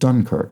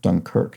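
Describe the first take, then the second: First: The stress is on the first syllable. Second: The stress is on the second syllable. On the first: This is the American way of saying it. "the opposite to how it was uh, clued" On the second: This is the British way of saying it. "giving second syllable stress in that manner"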